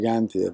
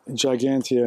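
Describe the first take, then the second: First: The G is pronounced the Spanish way. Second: The G is pronounced the English way. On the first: "with the G in Spanish is more like" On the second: "in English"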